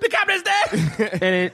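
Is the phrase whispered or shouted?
shouted. The phrase is shouted out loud. The news is announced to everyone.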